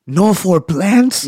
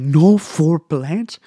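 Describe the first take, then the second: First: Much higher, louder and very slow, stretched in disbelief; baffled disbelief. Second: Much higher, louder and very slow, stretched in disbelief; flabbergasted. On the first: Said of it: "looks at me baffled and he goes". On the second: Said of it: "He's like ... flabbergasted". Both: Retold or imitated. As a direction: drag out the question, stunned.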